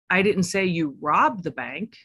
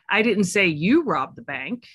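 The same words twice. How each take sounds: First: The stress is on the word robbed. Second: The stress is on the word you.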